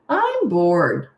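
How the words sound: It is said in a snotty tone.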